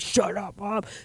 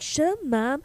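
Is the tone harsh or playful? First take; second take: harsh; playful. First: It is said harshly and seriously. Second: It is said in a light, teasing way.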